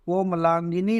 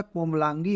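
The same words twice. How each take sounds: First: कोमलांगिनी with the extra syllable -गिनी at the end; कोमलांगिनी spoken as the form to avoid; wrong form. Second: कोमलांगी ending cleanly on -गी, no extra syllable; कोमलांगी spoken as the right spelling; correct form. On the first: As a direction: say कोमलांगिनी as the mistaken long form. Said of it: "नहीं होता है". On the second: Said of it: "होता है". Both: Shown as a demonstration.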